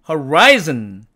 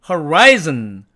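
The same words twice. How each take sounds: No difference in how they are said.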